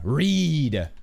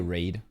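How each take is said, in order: First: The vowel sounds like the one in 'need'. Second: The vowel sounds like the one in 'made'. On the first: It follows the anime fans' usage. "the weeb pronunciation" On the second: It is read the way the spelling looks. "I could see why how somebody could say raid"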